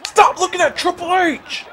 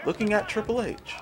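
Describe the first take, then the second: First: High, loud command; frustrated yell. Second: Softer, higher-pitched grumble; deflated complaint. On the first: Gamer yelling at his wrongly aimed wrestler, frustrated yell. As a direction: yell it at the game, exasperated. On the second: Gamer grumbling about his wrong target, softer deflated complaint. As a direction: repeat it softly in disbelief. Same words, muttered after yelling. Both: Real, not acted.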